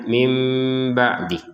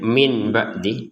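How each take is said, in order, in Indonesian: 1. Kata itu berakhir dengan bunyi m yang lembut. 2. Kata itu berakhir dengan bunyi n yang jelas. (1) "tapi membacanya mim ba'di" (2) "jangan lagi membacanya min ba'di"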